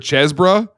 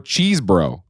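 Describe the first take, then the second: First: The first syllable rhymes with fez. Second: The first syllable rhymes with cheese. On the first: "First syllable rhymes with fez" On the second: "or cheese"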